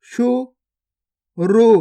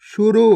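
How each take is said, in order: First: गुफा drawn out very slowly, each sound held long; slow stretched reading. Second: Said in the usual way. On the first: Shown as a demonstration. Teacher showing pupils each sound, drawn out very slowly. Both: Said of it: "पहले तो आपको शब्द को गौर से सुनना है".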